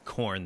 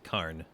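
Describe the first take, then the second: First: The word has the usual 'or' vowel. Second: The word has an 'ar' vowel instead. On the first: "instead of saying like corn" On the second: "they say carn"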